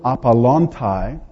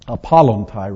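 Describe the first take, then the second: First: "apollontai" said slowly, a tentative first attempt; first-attempt pronunciation. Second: "apollontai" re-said quicker, as a correction; self-corrected pronunciation. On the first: Preacher reading out the Greek word "apollontai", slow first-attempt pronunciation. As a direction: sound out "apollontai" slowly, not yet corrected. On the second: Preacher fixing his reading of Greek "apollontai", self-corrected pronunciation. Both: Real, not acted. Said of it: "apollontai rather".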